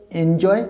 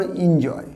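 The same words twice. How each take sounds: First: এনজয় beginning with "en"; one pronunciation variant. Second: এনজয় said as "IN-joy"; other pronunciation variant. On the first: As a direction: say এনজয় as "EN-joy", open "e". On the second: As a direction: begin এনজয় with "in", not "en". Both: Shown as a demonstration. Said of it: "অনেকে এটা উচ্চারণ করো".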